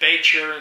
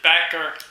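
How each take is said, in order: First: The middle consonant is a soft ch sound. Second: The middle consonant is a hard k sound. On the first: One branch of the family says it this way. "Some of them pronounced it Bacher" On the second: Another branch of the family says it this way. "some pronounced it Backer"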